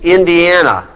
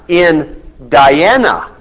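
First: It is said as the usual single name. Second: It is said as two parts, in plus Diana.

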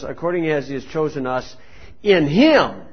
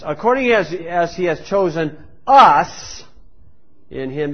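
First: The word him carries the main stress. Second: The word us carries the main stress. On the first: The focus is on the one in whom they were chosen. The speaker calls it right. "we should magnify Jesus Christ in a passage" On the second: The focus is on the people who were chosen. The speaker calls it wrong. "They magnify on themselves, the person"

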